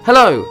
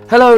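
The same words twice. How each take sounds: First: It is said as a relaxed, friendly greeting. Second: It is shouted out as a loud call. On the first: It greets someone nearby. "Sort of greeting" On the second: It calls out to someone at a distance. "which is why Scrooge shouts it down to the boy"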